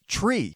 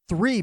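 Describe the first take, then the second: First: The word begins with a hard 't' sound. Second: The word begins with a soft 'th' sound. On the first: "three becomes tree" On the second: "that T H sound can be brutal for non-English speakers"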